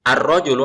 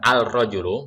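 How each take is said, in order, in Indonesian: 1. Bunyi l menyatu dengan r, sehingga terdengar ar. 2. Bunyi l diucapkan dengan jelas, sehingga terdengar al. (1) "ada ar-nya" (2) "bukan al-rajulu"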